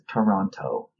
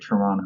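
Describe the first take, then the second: First: It is said the way outsiders say it. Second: It is said the way locals say it. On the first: The speaker is not from the city. The speaker calls it wrong. "Nobody from Toronto says Toronto" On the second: The speaker is from the city. The speaker calls it right. "People in Toronto say Toronto"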